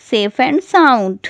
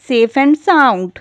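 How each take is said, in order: First: Safe and sound, drawn out slowly word by word; slow teacher repetition of safe and sound; very slow, spelled-out teaching pace. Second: Said in the usual way. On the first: Shown as a demonstration. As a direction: stretch safe and sound out slowly so learners catch it. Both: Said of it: "सही सलामत को कहते हैं".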